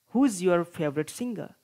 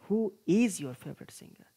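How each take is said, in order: First: The verb is contracted into one syllable. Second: The verb is said as a separate full word. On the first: "contracted forms of verbs" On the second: "without contracted forms"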